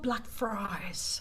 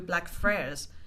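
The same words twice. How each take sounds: First: Blackfriars is pronounced with a British accent. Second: Blackfriars is pronounced with a non-British accent. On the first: The speaker calls it right. "It's called Blackfriars" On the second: The speaker calls it wrong. "get your pronunciation right"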